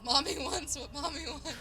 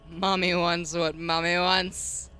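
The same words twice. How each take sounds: First: It is said in a plain tone. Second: It is said in a strict tone.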